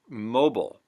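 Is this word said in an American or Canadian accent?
American. It is said in an American accent. "U S English"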